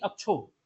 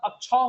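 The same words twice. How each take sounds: First: "अक्षो" with a plain o vowel, not au; wrong "अक्षो". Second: "अक्षौ" with a long open au vowel; correct "अक्षौ". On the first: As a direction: say "अक्षो" with a short closed o. ("अक्षो" में सादा ओ की ध्वनि) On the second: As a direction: say "अक्षौ" stretching the औ as au. ("अक्षौ" में औ की लंबी ध्वनि) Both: Shown as a demonstration. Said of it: "ना कि अक्षो".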